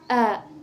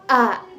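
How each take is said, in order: First: The vowel starts with a softened glottal catch. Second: The vowel starts with a clear glottal catch. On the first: "dibaca ringan" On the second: "dibaca jelas"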